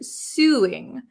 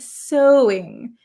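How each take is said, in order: First: The first vowel sounds like 'sue'. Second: The first vowel sounds like 'so'. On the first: The speaker calls it wrong. "She pronounces this word suing, but that is not how we pronounce it in English" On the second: The speaker calls it right. "Actually, this is pronounced so"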